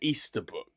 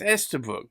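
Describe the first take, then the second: First: The first vowel sounds like 'ee'. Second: The first vowel sounds like 'ess'. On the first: The speaker calls it right. "it's got a silent A in it. It's Easterbrook" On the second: The speaker calls it wrong. "surely it's Esterbrook, but no"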